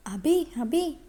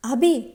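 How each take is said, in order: First: Lightly calling his name to wake him, higher; wife gently calling her sleeping husband awake; gentle calling. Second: Louder, sharper call of his name; wife calling her sleeping husband louder, a little annoyed; a bit louder call. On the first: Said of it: "అని అభిని తడుతూ పిలుస్తోంది". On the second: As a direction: raise the voice to wake him this time. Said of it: "ఈసారి కాస్తంత గట్టిగా". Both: A narrator's reading.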